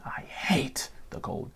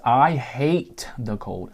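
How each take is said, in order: First: Slow, soft whispered repeat. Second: Slow, deliberate, each word leaned on; slow emphatic. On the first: Vlogger repeating his hatred of cold in a slow whisper. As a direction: whisper it again like a secret grudge. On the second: Vlogger telling viewers he hates cold, slow and emphatic. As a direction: lay it down slowly and firmly. First of two takes of same line. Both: Real, not acted.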